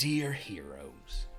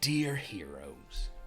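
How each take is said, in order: First: It is read in a put-on character voice. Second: The same.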